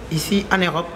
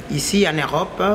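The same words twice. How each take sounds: The two takes are said the same way.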